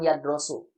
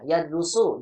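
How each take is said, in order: First: The second syllable has the vowel o. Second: The second syllable has the vowel u. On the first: The speaker calls it wrong. "jangan yadrosu" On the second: The speaker calls it right.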